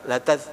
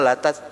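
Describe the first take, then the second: No difference in how they are said.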